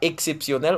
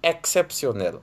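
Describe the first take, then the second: First: The first vowel is not an open 'è' sound. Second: The first vowel is an open 'è' sound. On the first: The speaker calls it wrong. "On ne dit pas" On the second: The speaker calls it right. "on dit"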